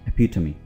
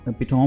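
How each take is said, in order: First: It ends in a 'tummy' sound, four syllables. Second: It ends in a 'tome' sound, three syllables. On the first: The speaker calls it right. "ये बोलेंगे एपिटमी जी" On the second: The speaker calls it wrong. "इसको एपिटोम नहीं बोलना"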